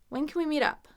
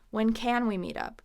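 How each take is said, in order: First: The word can is reduced and unstressed. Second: The word can is fully pronounced and stressed.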